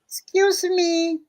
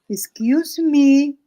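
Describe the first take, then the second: First: It is said quietly, in a small voice. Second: It is said a little more loudly.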